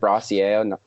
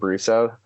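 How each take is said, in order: First: The name ends with a French-style ending. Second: The name ends without a French-style ending. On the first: The speaker calls it wrong. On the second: The speaker calls it right.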